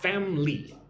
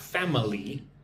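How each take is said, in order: First: The word is said with only two syllables. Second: The word is said with three full syllables. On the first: The speaker calls it right. "Two syllables, right?" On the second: The speaker calls it wrong. "It's not family"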